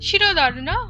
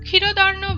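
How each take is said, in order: First: The first consonant sounds like 'sh'. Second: The first consonant sounds like 'kh'. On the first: The speaker calls it right. "শয়ের মতো উচ্চারণই আমরা করব" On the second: The speaker calls it wrong. "ক্ষয়ের মতো উচ্চারণ না করে"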